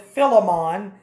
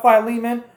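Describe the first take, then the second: First: Philemon said as "fill-uh-MAHN"; alternate pronunciation. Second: Said in the usual way. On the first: Shown as a demonstration. Preacher citing how some say the book's name, Philemon as "FILL-uh-mahn". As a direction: say Philemon with a short first i and an open "mahn" ending. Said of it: "pronounce it that way". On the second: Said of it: "or as some have called it".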